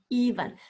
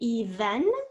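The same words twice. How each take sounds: First: The second syllable has a weak schwa vowel. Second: The second syllable has a clear short E.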